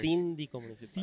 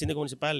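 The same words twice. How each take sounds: First: The phrase is said slowly. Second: The phrase is said quickly. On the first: "ya ahora lo hablo más despacio" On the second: "yo hablo rápido"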